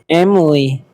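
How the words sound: It is said with English vowels and rhythm. "in English, it will see it will we would say Emily"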